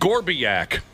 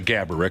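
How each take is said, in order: First: The name is said like Gorbiak. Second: The name is said like Gaborik. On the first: It mimics someone's made-up pronunciation. The speaker calls it wrong. "as Josh's uncle would say" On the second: It is the name's real pronunciation. The speaker calls it right. "of course, is the real pronunciation"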